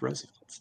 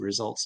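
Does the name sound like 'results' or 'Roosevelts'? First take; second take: Roosevelts; results. First: The name is said like the surname Roosevelt. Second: The name is said like the word results. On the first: The speaker calls it right. "oh, it's Roosevelt's" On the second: The speaker calls it wrong. "I would always say results too"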